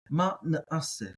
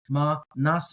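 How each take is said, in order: First: A guttural stop splits the middle vowels. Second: The middle vowels run together without a stop. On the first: "That's how I'm going to pronounce it" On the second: "You might hear"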